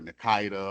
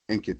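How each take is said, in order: First: An I vowel comes between the N and K. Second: The N runs straight into the K sound. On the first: The speaker calls it wrong. "a lot of people put an I after the N" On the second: The speaker calls it right. "you say it just how it's written, the N and the Kita"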